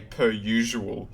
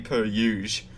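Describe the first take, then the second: First: It is said in a non-bogan accent. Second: It is said in a broad bogan accent.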